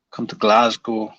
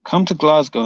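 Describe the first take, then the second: First: Half-hearted Scottish accent; attempted Scottish accent. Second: Said in the usual way. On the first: Shown as a demonstration. Streamer rereading a challenge from chat, failed Scottish accent. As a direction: have a weak go at a Scottish accent. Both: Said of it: "I can't do a Scottish accent".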